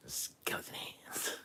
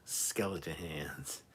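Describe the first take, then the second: First: Slow eerie whisper, imitating Sylvia; Sylvia's skeleton whisper. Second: Said in the usual way. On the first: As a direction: drag it out in a spooky whisper. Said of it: "I can't do it like she can".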